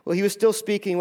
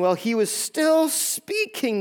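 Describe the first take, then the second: First: Said in the usual way. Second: Slow, high stress on "still speaking"; drawn-out emphasis. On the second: Real, not acted. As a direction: stretch "still speaking" out slowly, pitched up. Repeats the verse slowly for emphasis.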